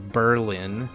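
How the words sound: It is said with an American pronunciation. The speaker calls it wrong. "most most U S Americans would pronounce it probably"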